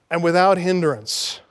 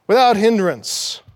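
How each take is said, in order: First: Said in the usual way. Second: "Without" hit hard, falling; stress on WITHOUT. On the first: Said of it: "final two words". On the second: Shown as a demonstration. Preacher hammering "Without" home to listeners. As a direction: lean on "Without". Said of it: "coin a word".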